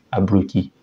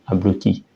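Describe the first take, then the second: No difference in how they are said.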